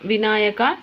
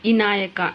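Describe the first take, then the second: First: The word begins with a v consonant. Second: The word begins with a vowel.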